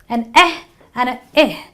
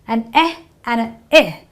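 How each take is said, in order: The two takes are said the same way.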